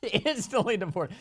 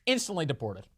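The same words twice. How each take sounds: First: Slow, higher, amused mock voice; drawn-out chuckling punchline; laughing repeat. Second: Said in the usual way. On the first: Shown as a demonstration. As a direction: savor it through a laugh. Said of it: "repeated slower, laughing". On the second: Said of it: "repeated with laugh".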